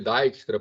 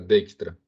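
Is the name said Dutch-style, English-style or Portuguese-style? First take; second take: English-style; Dutch-style. First: The name is said with an English-style vowel. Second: The name is said with Dutch-style sounds. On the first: The speaker calls it wrong. "Tem gente que chama de Dijkstra porque o, em inglês o item som de I" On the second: The speaker calls it right. "E lá do idioma deles o D I J é Dij, tá? Então, o nome correto do cara é Dijkstra"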